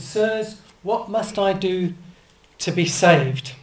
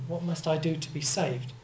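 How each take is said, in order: First: Louder, slower, pleading cry; frightened jailer begging for rescue; desperate jailer's plea. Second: Said in the usual way. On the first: Acted. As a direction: beg to be saved, voice climbing in volume. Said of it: "he came out and said". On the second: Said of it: "What does it mean?".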